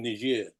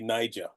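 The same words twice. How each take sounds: First: It is pronounced the French way. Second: It is pronounced the English way.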